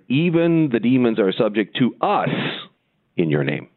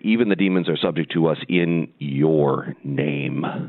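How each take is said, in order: First: The stress falls on the word us. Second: The stress falls on the word name. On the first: The power is credited to the disciples themselves. The speaker calls it wrong. "the human would say" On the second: The power is credited to the name of Jesus. The speaker calls it right. "It should read like this"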